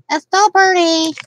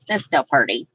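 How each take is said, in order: First: Cutesy repeated compliment; higher, louder sing-song. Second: Said in the usual way. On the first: Pretend. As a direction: stress on still, raised pitch. Repeats phrase in two ways.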